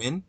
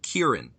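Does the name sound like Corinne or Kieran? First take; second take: Corinne; Kieran. First: The name sounds like Corinne, beginning with 'cur'. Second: The name sounds like the Irish name Kieran. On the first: This is how the other person says it. "you say" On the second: This is how the speaker says it. "I pronounce it Kieran"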